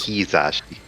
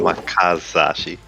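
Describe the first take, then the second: First: The second syllable has an 'ee' vowel. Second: The second syllable has an 'ah' vowel. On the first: The speaker calls it right. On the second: The speaker calls it wrong.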